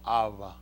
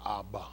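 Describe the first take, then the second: First: The middle consonant is a v sound. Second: The middle consonant is a b sound. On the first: This is how the translators hear it enunciated. "it leans more toward a b a v sound" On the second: This is how it is commonly said. "than we're saying Abba"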